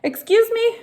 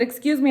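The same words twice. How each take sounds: First: High, sharp, offended excuse me; a high indignant challenge. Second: Said in the usual way. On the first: Retold or imitated. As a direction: act shocked and insulted. Indignant retort to neighbor.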